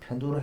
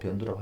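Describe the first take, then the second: First: The first syllable starts with an aspirated p. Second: The first syllable starts with a plain b. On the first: "편두를 해도 되고" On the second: "변두라고 해도 되고 다 맞습니다"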